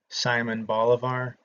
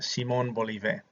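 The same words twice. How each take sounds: First: The name is said with a Southern American pronunciation. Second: The name is said with a Spanish pronunciation. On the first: "if you grew up in the South like I did, you'll pronounce his name" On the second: "would pronounce it the correct way"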